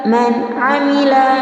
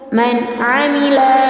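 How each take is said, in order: Both takes have the same delivery.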